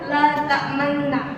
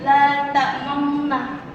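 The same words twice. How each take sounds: First: The lips stay unrounded before the doubled n. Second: The lips round briefly before the doubled n. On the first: "ayat yang bertuliskan la ta'manna" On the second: "dimoncongkan bibir menjadi la ta'manna"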